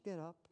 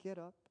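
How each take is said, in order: Both takes have the same delivery.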